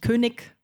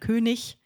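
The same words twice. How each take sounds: First: The word is said in an everyday, non-stage way. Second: The word is said in standard stage pronunciation. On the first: The speaker calls it wrong. "dass man nicht König sagt" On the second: The speaker calls it right. "sondern König"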